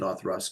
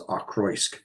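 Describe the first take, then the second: First: The middle is said with a th sound. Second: The middle is said with a ch-r sound. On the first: The speaker calls it right. "you're supposed to pronounce it Othrusk" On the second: The speaker calls it wrong. "it looks like it should be pronounced as Ochroisk"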